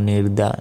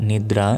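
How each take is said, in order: The two takes are said the same way.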